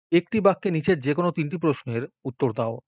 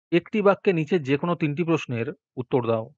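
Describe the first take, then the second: No difference in how they are said.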